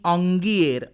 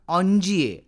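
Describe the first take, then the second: First: A hard g sound, ending with an r. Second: A soft j sound, with no final r. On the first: Some people say it this way. "तर कुणी ऑंगिएर असाही करतात" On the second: This is how it is said in French. "पण फ्रेंचमध्ये त्याचा उच्चार ऑन्जिये असाच होतो"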